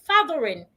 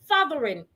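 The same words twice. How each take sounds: No difference in how they are said.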